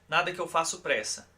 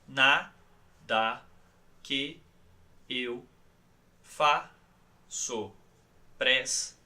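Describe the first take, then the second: First: The sentence is spoken at a normal pace. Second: The sentence is spoken very slowly, syllable by syllable.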